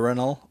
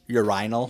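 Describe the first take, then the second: First: It is said in an American accent. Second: It is said in a British accent.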